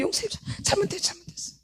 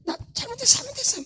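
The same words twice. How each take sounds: First: High, soft whimpering plea fading to a whisper; pleading like a small child to mom; childlike pleading. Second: Put-on high, soft childlike pleading; a little child softly begging forgiveness; child begging mom. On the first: Pretend. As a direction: beg sweetly like a scolded child. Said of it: "나한테 한 번 했는데". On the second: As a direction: whine it like a kid caught misbehaving. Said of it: "애들 막 잘못하면 막 그러죠 엄마한테".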